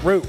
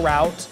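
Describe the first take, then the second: First: It sounds just like the plant word. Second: It does not sound like the plant word. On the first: The speaker calls it wrong. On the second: The speaker calls it right.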